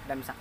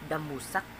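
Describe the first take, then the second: First: The word is said with two syllables. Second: The word is said with three syllables. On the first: This is how it is said in the speaker's home area. "Sa amin, damsak" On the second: This is the form given in the list.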